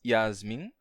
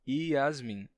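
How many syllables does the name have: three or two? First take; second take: two; three. First: The name is said in two syllables. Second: The name is said in three syllables. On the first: "em duas sílabas" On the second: "ou você pode dizer Yasmin"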